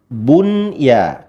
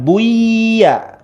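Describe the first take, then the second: First: The n sound is clearly and fully pronounced. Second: The n sound is hidden and not clearly heard. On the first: The speaker calls it right. "tapi bunya" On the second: The speaker calls it wrong. "bukan buya"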